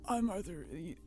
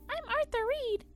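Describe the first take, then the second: First: It is said in a very deep voice. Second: It is said in a higher, younger voice.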